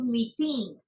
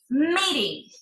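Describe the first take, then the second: First: The stress is on the second syllable. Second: The stress is on the first syllable. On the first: The speaker calls it wrong. "No decimos I love meeting" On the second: The speaker calls it right. "El estrés va en meet"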